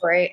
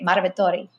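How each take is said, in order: First: It is said with an American accent. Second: It is said with an Italian accent.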